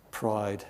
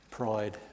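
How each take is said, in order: Both takes have the same delivery.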